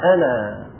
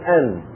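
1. تنتهي الكلمة بألف المد. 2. تنتهي الكلمة بنون ساكنة. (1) "نأتي بالألف" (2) "فنقول أن بالسكون"

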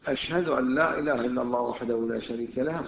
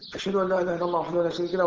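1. تُقرأ العبارة ببطء وتأنٍّ. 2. تُقال العبارة بسرعة، كأنها تمثيل. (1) "اقراها ببطء" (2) "طبعا انا قلتها بالتمثيل"

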